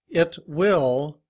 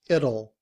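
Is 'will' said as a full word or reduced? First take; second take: full; reduced. First: Both words are said fully, with the W sound. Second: The W is dropped, and the T sounds like D. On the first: "it will becomes" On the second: "becomes it'll"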